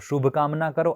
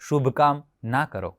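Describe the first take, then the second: First: It runs on without a pause after 'kam'. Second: There is a short pause after 'kam'. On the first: "ક્યારેક સળંગ બોલીએ" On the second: "આનું આ જ ઉચ્ચારણ છે એ હું આમ પણ કરી શકું"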